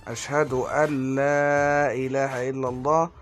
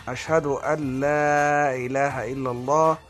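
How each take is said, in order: No difference in how they are said.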